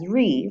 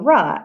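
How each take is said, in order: First: The vowel sounds like the one in rethink. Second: The vowel sounds like the one in remove. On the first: "as in rethink" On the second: "as in remove"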